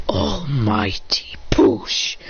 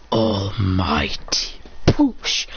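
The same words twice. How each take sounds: First: Whispered technique call. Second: Slow low technique call. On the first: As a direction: whisper the move name very slowly. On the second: Hero casts his technique, slow deep intoned call. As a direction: drag it out very slowly, much lower. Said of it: "He goes". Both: Retold or imitated.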